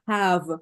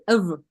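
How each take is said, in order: First: The word is said in full with a clear vowel. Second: The word is reduced to a weak 'of' sound. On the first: The speaker calls it wrong. "you wouldn't pronounce it have" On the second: The speaker calls it right. "you would say of"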